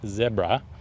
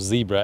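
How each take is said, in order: First: Zebra is said in a non-American, South African way. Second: Zebra is said in an American way.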